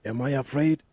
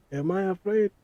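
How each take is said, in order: First: "Am I afraid?" with a rising, wondering end; questioning himself. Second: "Am I afraid?" pitched high, climbing at the end; incredulous self-question. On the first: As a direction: ask "Am I afraid?" as a real question. Asks himself whether he is afraid. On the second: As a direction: repeat "Am I afraid?" high, as if challenged. Repeats the question more incredulously. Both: Real, not acted.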